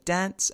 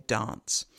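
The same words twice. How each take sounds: First: Said in the usual way. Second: "dance" with the other accent's vowel; other speaker's vowel. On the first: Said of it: "I might say". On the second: Shown as a demonstration. Lecturer contrasting two accents, other speaker's vowel in "dance". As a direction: say "dance" with his vowel, not your own. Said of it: "he might say".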